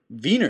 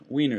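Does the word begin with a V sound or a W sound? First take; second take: V sound; W sound. First: The word begins with a V sound. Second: The word begins with a W sound. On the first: "the W is pronounced as a V often" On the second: "instead of"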